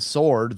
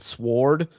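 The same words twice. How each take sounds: First: The word is said with no W sound. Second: The word is said with a W sound. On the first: "instead of saying sword" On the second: "Why'd they put the W there?"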